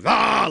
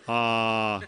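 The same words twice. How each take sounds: First: It is a loud, energetic scream. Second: It is a weak, half-hearted scream.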